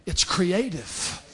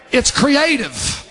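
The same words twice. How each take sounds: First: Quiet, slow restatement; soft aside. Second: Raised, stretched preaching phrase; emphatic declaration. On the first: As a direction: let it sink in softly, slowly. Soft repeat after rhetorical question. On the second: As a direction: proclaim it slowly to the congregation. First take in preached list. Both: Real, not acted.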